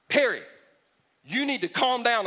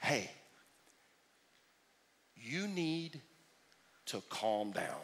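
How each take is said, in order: First: Mock calm down. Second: Soft, low, patronising hush; mock soothing "calm down"; condescending calm down. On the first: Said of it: "anybody step into my life and go". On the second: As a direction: talk down to them gently. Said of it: "some genius in your life walks up to you, and they say".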